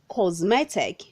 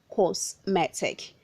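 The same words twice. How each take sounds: First: The middle consonant sounds like a z. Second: The middle consonant sounds like an s. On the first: The speaker calls it right. "Say cosmetic, The letter S changes to the sound of letter Z" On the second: The speaker calls it wrong. "not cosmetic"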